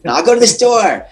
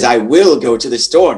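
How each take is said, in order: First: "I will" is contracted to one syllable. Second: "I will" is said as two full words. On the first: It sounds like how people really talk. The speaker calls it right. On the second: It sounds stiff, not like real speech. The speaker calls it wrong.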